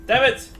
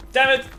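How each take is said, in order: Both takes have the same delivery.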